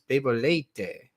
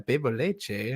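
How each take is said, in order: First: The last word has a 't' sound. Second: The last word has a 'ch' sound. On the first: This is the Portuguese form. The speaker calls it right. "Like no, but this is bebo leite" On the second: This is the Spanish habit. The speaker calls it wrong. "I'm used to hearing, you know, oh yeah, bebo leche"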